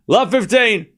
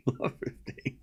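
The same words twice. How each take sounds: First: "Love fifteen" called out higher and louder; announcer score call. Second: Breathless whisper through a laugh; whispered score call. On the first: Calling the score for listeners, a clear umpire call. Calls score again properly. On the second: Calling the score while still laughing, a whisper. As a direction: let "Love fifteen" slip out as a whisper. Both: Real, not acted.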